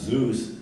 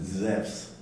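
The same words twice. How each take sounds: First: The name has the usual English pronunciation. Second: The name has the modern Greek pronunciation. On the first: "we would pronounce Zeus Z E U S" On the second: "they pronounce it Zeus"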